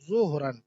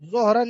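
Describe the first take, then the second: First: The first vowel is a short 'u' sound. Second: The first vowel is a long 'o' sound. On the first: This is the Arabic pronunciation. The speaker calls it right. "बल्कि अरबी में तो जुहरन" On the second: This is how it is said in Urdu. The speaker calls it wrong. "जोहरन नहीं, जोहर ये तो मजहूल पढ़ते हैं"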